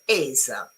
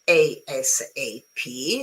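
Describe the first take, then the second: First: It is spoken as one single word. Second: Each letter is spoken separately. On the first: "or as a single word" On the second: "saying each letter"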